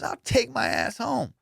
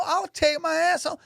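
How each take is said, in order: First: Higher and slow, muttered again; repeated threat. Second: Very high hammed-up quitting threat; mock angry threat. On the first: Retold or imitated. Guard repeating his threat to quit, slower mock voice. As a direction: drag out I'll take my ass home, slower and less high. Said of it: "He goes". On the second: Guard threatening to quit on the lady, high mock rant. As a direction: fling out I'll take my ass home in a high put-on voice. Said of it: "they're arguing in front of everybody".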